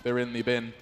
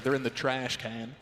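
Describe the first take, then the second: First: Said in the usual way. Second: Mock American accent on "trash can"; "trash can" in a lightly put-on American accent. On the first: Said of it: "Oh, sorry, we're in America". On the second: Shown as a demonstration. British caster correcting himself for American viewers, in a mock American accent. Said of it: "Is that your American accent?".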